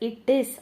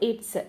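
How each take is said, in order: First: Two separate words, it and is, are heard. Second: The words are shortened into one syllable, its.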